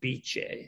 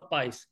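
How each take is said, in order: First: The name ends with a 'ch' sound. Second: The name ends with an 's' sound. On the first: The speaker calls it right. "So it's pronounced Biche" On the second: The speaker calls it wrong. "Get out. You cannot"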